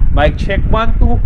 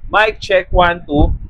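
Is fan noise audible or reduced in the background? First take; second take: audible; reduced. First: Fan noise is audible behind the voice. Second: Fan noise is reduced behind the voice. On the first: "with microphone" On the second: "with mic na naka-noise cancellation"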